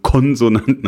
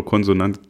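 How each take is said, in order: First: Konsonanten punched louder and higher; pointed, raised emphasis on Konsonanten; stress on Konsonanten. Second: Said in the usual way. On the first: Real, not acted. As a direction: hit Konsonanten hard, querying the word. Repeats the doubtful word pointedly.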